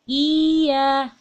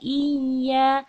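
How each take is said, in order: First: The vowel is simply lengthened without pressing. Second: The y sound is held and pressed briefly. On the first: The speaker calls it wrong. "jadi hanya dipanjangkan" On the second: The speaker calls it right. "ditahan dan ditekan"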